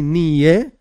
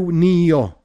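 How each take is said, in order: First: The word ends in an 'eh' sound. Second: The word ends in an 'o' sound. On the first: Everything will be created by his word. "Some say Nie" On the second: Everything was created by his word. "but we in Chabad say Nio"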